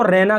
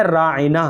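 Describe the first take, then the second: First: "रैना" run together as two syllables, rai-na; variant pronunciation. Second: "रायना" said with an ayn after the long raa; correct pronunciation. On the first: Teacher citing how some people read the name, variant pronunciation. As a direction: say "रैना" with one ai vowel, no ayn. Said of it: "कुछ लोग इसको रैना करके भी पढ़ते हैं". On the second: Teacher showing viewers the name's proper sound, correct pronunciation. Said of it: "सही तलफ़ुज़ कुछ इस तरह से है". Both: Shown as a demonstration.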